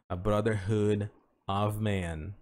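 There is a pause before the last word. "Ele tem essa pausa"

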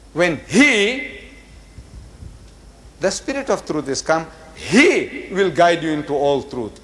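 The pronoun 'he' is read with strong emphasis.

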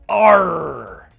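The R sound is strongly pronounced. This is how pirates say it. The speaker calls it right. "they say arr"

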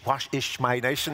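It is said in an imitated Irish accent.

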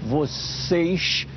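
The final s is a hushing sh sound. This is how it is said in Rio de Janeiro. "como no Rio de Janeiro"

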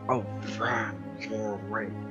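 It is said in a raspy smoker voice.

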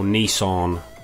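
It is pronounced in an American way.

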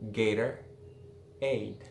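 The middle T is soft, American style.

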